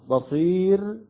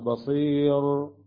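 First: The final r is pronounced light and thin. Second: The final r is pronounced heavy and full. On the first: The speaker calls it right. "الراء هنا سكنت وقبلها ياء ساكنة" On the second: The speaker calls it wrong. "لا نقرأ بصير، البعض يقرأ هكذا لكل لا يعرف الحكم هنا"

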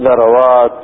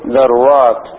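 First: The second letter carries an 'a' vowel. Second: The second letter carries no vowel. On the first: "يجب فتح العين" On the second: "وتسكينها"

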